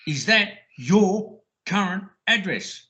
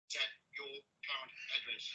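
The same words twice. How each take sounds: First: Said in the usual way. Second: Quick whisper. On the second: Retold or imitated. Quick hushed repeat of question.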